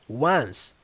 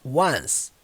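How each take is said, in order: The two takes are said the same way.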